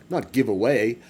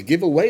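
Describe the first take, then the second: First: Not stressed, falling. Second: First take, plain give away; plain wording. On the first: Correcting his own wording, not stressed. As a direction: hit not in not give away. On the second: Streamer's first wording, plain. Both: Real, not acted.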